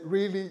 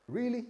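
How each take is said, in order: First: Mock disbelief. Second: Higher skeptical really; mock disbelief. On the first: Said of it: "if the person next to you said". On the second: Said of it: "this is how they respond".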